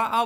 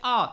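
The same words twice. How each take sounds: First: आ held long as the dirgha vowel. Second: आ said short and clipped as the hrasva vowel; quick short आ. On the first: Teacher showing students the long vowel, drawn-out आ. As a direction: stretch the आ out. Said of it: "बड़ा आ बोल रहा हूँ आ". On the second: Teacher demonstrating short vowel to students, quick short आ. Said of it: "इनमें बहुत समय कम लग रहा है". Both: Shown as a demonstration.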